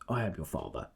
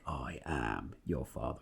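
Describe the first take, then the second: First: It is said plain and understated. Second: It is said big and dramatic.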